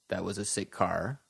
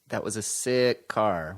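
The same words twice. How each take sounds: First: The word sick is short and flat. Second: The word sick is lengthened and emphasized. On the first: The speaker calls it wrong. "we don't say" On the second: The speaker calls it right. "we lengthen these words when we say them"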